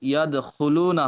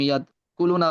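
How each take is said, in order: First: The second syllable starts with a raspy 'kh' sound. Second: The second syllable starts with a plain 'k' sound. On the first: The speaker calls it right. "ইয়াদ খুলু না হবে" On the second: The speaker calls it wrong. "তুমি ইয়াদ কুলু না বলে ফেলছো"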